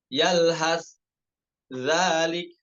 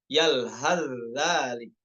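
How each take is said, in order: First: The final s stays separate before the z. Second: The s merges fully into the following z.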